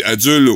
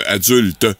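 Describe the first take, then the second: First: "adulte" with the final t dropped; mispronounced adulte. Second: Said in the usual way. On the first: Retold or imitated. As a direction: say "adulte" as "adule". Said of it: "Nancy Plante dit adulte". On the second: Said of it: "au lieu de adulte".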